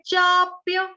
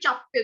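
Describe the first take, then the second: First: The first vowel is held long and unhurried. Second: The first vowel is clipped short and hurried. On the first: The speaker calls it right. "चा को थोड़ा सा दीर्घ करेंगे" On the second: The speaker calls it wrong. "हम लोग जल्दी में क्या करते हैं, जैसे हम सब्जी को चॉप चॉप"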